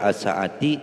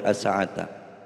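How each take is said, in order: First: The word ends with an i vowel. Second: The word ends with an a vowel. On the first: "tidak boleh" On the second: "tidak boleh"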